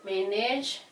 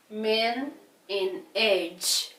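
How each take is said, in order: First: Said in the usual way. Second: "men in age" drawn out slowly, piece by piece; syllable by syllable. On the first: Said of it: "do you think you will manage". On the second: Shown as a demonstration. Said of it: "the first syllable".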